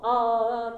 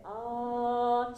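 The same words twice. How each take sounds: First: あー sung loud and pushed straight, no lift; a heavy, flat あー pressed down from above; harsh flat ah. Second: あー lifted slightly upward, louder. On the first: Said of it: "あーじゃなくて". (上から押し付けたようなあー) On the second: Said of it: "ちょっとだけ上、上向きのあー". (天井の高い上向きのあー) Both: Shown as a demonstration.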